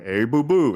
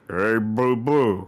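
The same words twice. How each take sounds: First: It is a sober Yogi Bear voice. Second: It is a drunken Yogi Bear voice.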